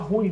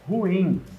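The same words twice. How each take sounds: First: The two vowels run together into one syllable. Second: The two vowels are said as separate syllables. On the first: The speaker calls it wrong. "Muita gente fala ruim" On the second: The speaker calls it right. "o certo é ruim"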